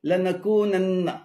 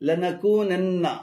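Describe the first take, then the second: No difference in how they are said.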